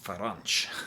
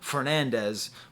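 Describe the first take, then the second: First: The name is clipped, ending in an nch sound. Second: The name is said with full English-style vowels. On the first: "in Portugal they pronounce his name Faranch" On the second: "a guy who we call Fernandez"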